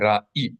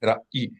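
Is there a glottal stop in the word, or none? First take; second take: glottal stop; glottal stop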